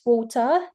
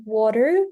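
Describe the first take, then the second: First: "water" in a British accent, R dropped at the end; drawn-out British "water", like "waw-tah". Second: "water" in an American accent, with a tapped T. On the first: Teacher comparing accents for students, British accent. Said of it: "British accent". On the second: Teacher comparing accents for students, American accent. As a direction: say "water" the American way, "wah-der". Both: Shown as a demonstration.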